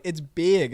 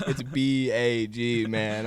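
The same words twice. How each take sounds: First: "big" said like "beeg", a touch louder; mock the teammate saying "big"; imitating "big". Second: Slowly spelled "B A G", letter by letter; spelling it out. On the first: Mocking teammate Noah's way of saying "big". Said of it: "he's like". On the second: Shown as a demonstration. Correcting his teammate, spelling "B A G" slowly. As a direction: lay out each letter slowly, like teaching. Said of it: "Bro, bag".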